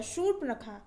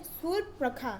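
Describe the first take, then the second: First: Said in the usual way. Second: शूर्पणखा starting with s, surpnakha; wrong pronunciation. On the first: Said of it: "शा होता है". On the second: Shown as a demonstration. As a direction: begin शूर्पणखा on s instead of sh. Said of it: "सा नहीं होता".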